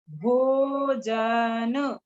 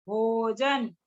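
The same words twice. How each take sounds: First: भोजन drawn out very slowly, syllable by syllable. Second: Said in the usual way. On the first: Shown as a demonstration. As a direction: stretch भोजन out slowly for the class. (भोजन को धीरे-धीरे खींचकर)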